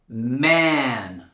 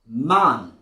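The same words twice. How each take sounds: First: It is said in an American accent. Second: It is said in a British accent. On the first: "pronounced with an American" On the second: "and a British accent"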